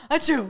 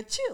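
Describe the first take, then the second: First: Loud playful achoo; sneeze imitation. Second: Squeaky achoo, very high; high squeaky sneeze. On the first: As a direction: fake a big sneeze. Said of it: "you don't go". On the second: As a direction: fake a tiny high sneeze. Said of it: "You go". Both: Shown as a demonstration.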